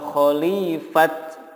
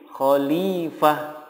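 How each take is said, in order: First: The word ends in a bare t sound. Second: The word ends in a soft h sound. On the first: The speaker calls it wrong. "atau khalifat, nggak boleh" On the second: The speaker calls it right. "jika wakof menjadi khalifah"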